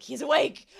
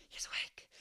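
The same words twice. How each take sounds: First: Loud, raised mock-startled cry; imitated startled announcement. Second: Hushed, voiceless whisper; imitated cartoon whisper. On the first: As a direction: announce it in hammed-up surprise. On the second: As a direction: whisper it like a startled cartoon character. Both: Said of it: "the way he says it".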